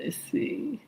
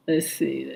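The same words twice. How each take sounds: First: Breathy whisper to herself. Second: Said in the usual way. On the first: Real, not acted. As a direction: whisper it while searching the list. Scanning names in chat.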